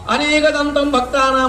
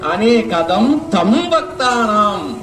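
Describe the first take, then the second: First: The first word is said joined without break. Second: A break splits the first word before tam. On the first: The one with many tusks, of the devotees. The speaker calls it wrong. "కలిపంటే" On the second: Him, the giver of many things to devotees. The speaker calls it right. "విడదీస్తే"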